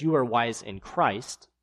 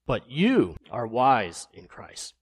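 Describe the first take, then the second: First: Said in the usual way. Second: Slow, mocking praise; sarcastic reading. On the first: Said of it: "be ironic". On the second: Shown as a demonstration. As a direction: say it with heavy irony. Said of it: "Let me read it in that way".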